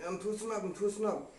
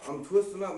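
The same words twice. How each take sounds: First: Barely able to talk. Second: Said in the usual way. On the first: Retold or imitated. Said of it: "couldn't ha-, barely talk". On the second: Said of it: "I said".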